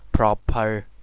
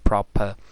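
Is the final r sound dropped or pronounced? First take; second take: pronounced; dropped. First: The final r sound is pronounced. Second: The final r sound is dropped. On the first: "they always pronounce R" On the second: "British English speaker will say proper"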